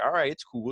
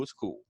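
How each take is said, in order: First: Said in the usual way. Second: Softer, dropped away; a low aside to himself; quiet repeat. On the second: Retold or imitated. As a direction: let the second one fade to almost nothing. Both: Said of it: "McIntyre's like".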